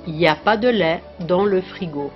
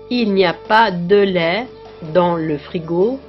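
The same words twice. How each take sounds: First: The word il is dropped completely. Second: The word il is pronounced in full. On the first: This is casual spoken speech. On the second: This is standard speech.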